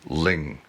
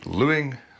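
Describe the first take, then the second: First: The name is pronounced 'Ling'. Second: The name is pronounced 'Lewing'. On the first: The speaker calls it right. "the correct pronunciation" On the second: The speaker calls it wrong. "every time you hear me say Lewing"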